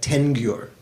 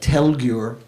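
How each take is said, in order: First: The first syllable ends with a nasal sound. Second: The first syllable ends with a clear L sound. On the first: "is sort of dropped and, and it becomes nasalized, like tengyur" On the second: "the la of the last word, like telgyur"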